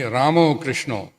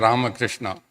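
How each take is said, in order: First: The first word ends with an 'o' sound. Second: The first word ends with an 'a' sound. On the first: The speaker calls it right. "then it must be Ramo Krishna" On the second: The speaker calls it wrong. "It can't be Jayo Jaya Rama Krishna. Then we're mixing it up"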